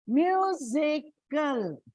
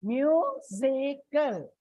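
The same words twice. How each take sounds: First: Musical said slowly with the stress on mu, MU-si-cal; slow demo of musical, hit MU; stress on first syllable. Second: Musical said slowly again with the stress on mu, MU-si-cal; slow demo of musical, hit MU; stress on first syllable. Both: Shown as a demonstration. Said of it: "so it comes on the first".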